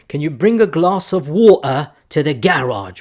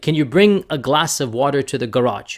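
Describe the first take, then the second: First: It is said in a British accent. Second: It is said in an American accent.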